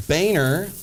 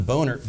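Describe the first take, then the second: First: Boehner said as BAY-ner; corrected surname. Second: Boehner said as BOH-ner, like "boner"; mispronounced surname. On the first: Anchor correcting his misread name, Boehner said "BAY-ner". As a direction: say Boehner with an "ay" in the first syllable. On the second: Anchor misreading a politician's name, Boehner said "boner". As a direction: say Boehner with a long O in the first syllable. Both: Shown as a demonstration.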